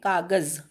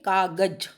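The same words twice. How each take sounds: First: The last consonant is a z sound. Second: The last consonant is a j sound. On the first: "नुक्ता लगाने के बाद" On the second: "अगर आप नुक्ता नहीं लगाएंगे तो"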